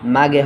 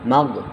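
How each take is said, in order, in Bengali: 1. শেষ ব্যঞ্জনটি একটি যোগ করা স্বরধ্বনি দিয়ে ছাড়া হয়। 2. শেষ ব্যঞ্জনটি স্বরধ্বনি ছাড়াই ধরে রাখা হয়।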